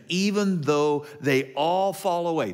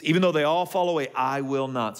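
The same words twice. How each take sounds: First: Said in the usual way. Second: Hammed-up brash Peter; brash boast. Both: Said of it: "Peter does what he so often does".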